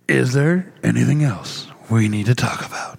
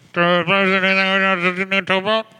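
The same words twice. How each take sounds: First: It is said in a movie trailer voice. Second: It is said in a drive-through cashier voice.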